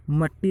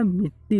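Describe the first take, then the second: First: मट्टी said with a short a, mat-tee; wrong form mattee. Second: Said in the usual way. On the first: Shown as a demonstration. Teacher showing students the wrong form, mat-tee. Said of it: "नहीं होता". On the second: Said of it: "होती है".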